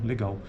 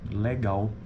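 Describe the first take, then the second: First: The first vowel is a closed e sound. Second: The first vowel is an open e sound. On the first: This is the most common pronunciation. "O que mais ocorre, na verdade, na sua maioria" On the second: This pronunciation also occurs, less often. "Mas tem ocorrência também, que fica legal"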